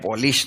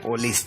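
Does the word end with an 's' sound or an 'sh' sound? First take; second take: sh; s. First: The word ends with an 'sh' sound. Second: The word ends with an 's' sound. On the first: The speaker calls it wrong. "ઓલા ભાઈ પોલીશ એવું બોલ્યા" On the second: The speaker calls it right. "આ પોલીસ છે"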